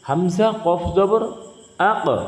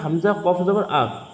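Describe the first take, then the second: First: The final k is released with a strong bounce. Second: The final k is closed plainly without a bounce. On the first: "কলকলার করার কারণে আমাদেরকে ধাক্কা দিয়ে পড়তে হবে" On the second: "আমরা আগে পড়েছিলাম"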